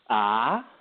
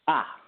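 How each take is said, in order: First: The pitch rises like a question. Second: The pitch is short, sharp and quick. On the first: "a rising tone" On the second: "a sharp tone... it's really quick"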